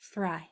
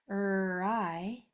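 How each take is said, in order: First: The word is said smoothly as one syllable. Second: The word is split into three separate sounds. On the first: The speaker calls it right. "into one syllable, one chunk, one sound" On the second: The speaker calls it wrong. "So it's not thry. Thry sounds like a three syllable word"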